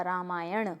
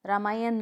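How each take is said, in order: First: रामायण ending in retroflex ण; correct pronunciation. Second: रामायण ending in dental n; wrong pronunciation. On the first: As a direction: model रामायण with the tongue curled back on the last n. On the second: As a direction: demonstrate रामायण as raamaayan with plain न. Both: Shown as a demonstration. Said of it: "नहीं होता".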